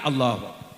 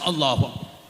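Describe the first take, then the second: First: It is said weakly, as if blown by wind. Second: It is said in a wilder, more energetic way.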